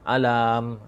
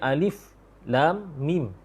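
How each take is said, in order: First: The letters are run together as one word. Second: Each letter name is said separately. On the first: The speaker calls it wrong. "Tak tak pula dibaca alam" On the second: The speaker calls it right. "dibaca alif lam mim. Sebiji-sebiji huruf tu dibaca"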